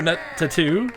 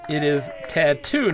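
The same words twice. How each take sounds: First: "tattoo" said as a quirky "a tattoo" version, rising; "tattoo" with a playful wrong stress; mock wrong pronunciation. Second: "tattoo" said slowly as ta-TOO; correct pronunciation. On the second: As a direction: spell out "tattoo" the proper way, slowly. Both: Shown as a demonstration. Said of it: "It is tattoo, not tattoo".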